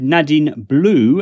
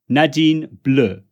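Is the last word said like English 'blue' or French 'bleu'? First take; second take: English; French. First: The last word sounds like the English word 'blue'. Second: The last word sounds like the French word 'bleu'. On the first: The speaker calls it wrong. "as in the color blue in English" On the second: The speaker calls it right. "in fact it's Nadine Bleu"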